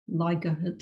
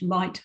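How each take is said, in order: First: An extra sound splits the middle of the word. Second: It is said as one smooth syllable. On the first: The speaker calls it wrong. "not ligahit or whatever" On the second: The speaker calls it right. "how that is pronounced in English"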